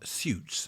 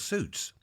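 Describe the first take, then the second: First: It is said in a posher, more refined pronunciation. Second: It is said in a plain, common pronunciation. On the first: This is how some other people say it. "as some people say" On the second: This is the speaker's own everyday way of saying it. "I just say suit because I'm common"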